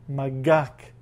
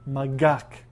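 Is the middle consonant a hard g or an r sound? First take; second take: hard g; hard g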